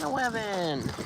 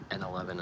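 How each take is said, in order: First: Put-on high sing-song baby talk. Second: Said in the usual way. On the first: Shown as a demonstration. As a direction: coo it like a toddler. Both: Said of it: "I wanna say N eleven in, like, a baby voice".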